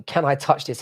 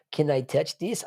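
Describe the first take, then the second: First: Said in the usual way. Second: Lightly voiced innocent ask, ending on a rise; a hint of a coy, innocent voice; silly put-on voice. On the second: Mimicking Merab for chat, in a light put-on voice. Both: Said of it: "I don't know why I said it in that voice".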